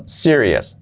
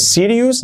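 First: "serious" as SI-ri-es; falling "serious", weak "-es" ending; correct pronunciation. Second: "serious" ending in "-ius"; wrong pronunciation. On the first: Teacher gives the correction: "serious" as SI-ri-es. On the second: Teacher rejects this version: "serious" as SI-ri-us. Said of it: "no es serious". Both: Shown as a demonstration.

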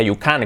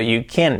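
First: "can" with open Spanish A, KAHN; "can" said as it is spelt in Spanish; imitated mistake. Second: "can" as short KEN; reduced vowel in "can"; correct vowel. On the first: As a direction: copy the learner's "you can". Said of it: "como dice él". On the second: Shown as a demonstration. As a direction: model "You can" with English vowel. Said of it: "que no sea".

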